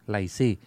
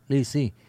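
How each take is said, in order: First: The word is said with Cantonese pronunciation. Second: The word is said with Mandarin pronunciation. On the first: "Theo cái giọng Quảng Đông đó là lì xì" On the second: "phát âm theo cái giọng quan thoại đó là lì xì"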